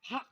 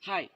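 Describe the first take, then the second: First: It is said in a put-on foreign accent. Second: It is said plainly in the local accent. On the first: "আইলসের মানুষ আইলসের ভাষায় কি বলে?" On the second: "একজন মানুষের সাথে দেখা হলে আমরা কি বলি?"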